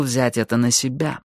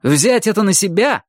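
First: Restrained, contrite admission; apologetic. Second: High, incredulous echo; indignant flare-up. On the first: Russian admits he should have acted himself, apologetic. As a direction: say it evenly, accepting the responsibility. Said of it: "извиняющимся тоном сказал он". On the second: Майки flares up at the Russian's apology, indignant. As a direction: throw the words back in outrage. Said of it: "вскинулся Майки". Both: A narrator's reading.

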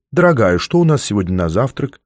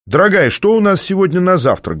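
First: Said in the usual way. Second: High, lively call; cheerful call-out. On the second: A narrator's reading. Man asking his "darling" about breakfast, cheerfully calling out. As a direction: call it out brightly, pitch up. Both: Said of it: "бодро выкрикнул я".

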